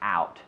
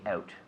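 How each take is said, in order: First: The word is said with an American accent. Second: The word is said with a Canadian accent. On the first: "But Americans will say out" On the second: "I have a very Canadian accent. I say out"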